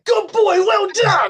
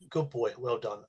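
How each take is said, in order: First: It is said in an excited, high-energy voice. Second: It is said in a calm, low-energy voice.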